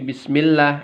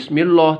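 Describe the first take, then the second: First: The vowel after the L sounds like 'a'. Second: The vowel after the L sounds like 'o'. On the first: The speaker calls it right. "kasroh a ya" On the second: The speaker calls it wrong. "bukan o ya. Bukan bismillah"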